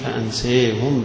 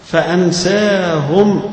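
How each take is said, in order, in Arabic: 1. المدّ الطويل مائل نحو 'e' قليلاً. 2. المدّ الطويل هو صوت 'a' مفتوح.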